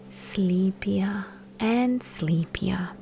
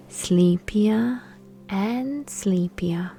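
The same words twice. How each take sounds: The two takes are said the same way.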